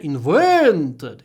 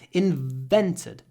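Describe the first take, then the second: First: The stressed vowel is big and exaggerated. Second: The stressed vowel is moderate, the v lengthened. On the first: The speaker calls it wrong. "we don't say invented. It's not a big air" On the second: The speaker calls it right. "In long v"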